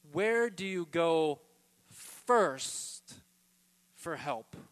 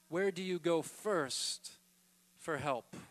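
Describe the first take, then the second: First: Where do you go, slow, then first punched loud; stress on first. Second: Said in the usual way. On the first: Shown as a demonstration. Preacher pressing the congregation on first. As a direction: lean hard on first. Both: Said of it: "That's why I'm emphasizing this word first".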